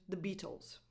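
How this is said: The T in Beatles is a crisp true T. "British English, the T is more of a true T"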